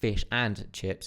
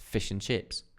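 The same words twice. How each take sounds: First: The word 'and' is said fully and stressed. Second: The word 'and' is reduced and smoothly connected. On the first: The speaker calls it wrong. "It's not fish and chips" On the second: The speaker calls it right. "It's fish and chips. ... It's much smoother. It's connected"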